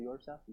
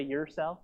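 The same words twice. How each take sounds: First: Said in the usual way. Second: "yourself" with a reduced first syllable, "yer"; casual YOURSELF. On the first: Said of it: "instead of yourself". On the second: Shown as a demonstration. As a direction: say "yourself" loosely as "yer-self". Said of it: "You can say yourself instead of".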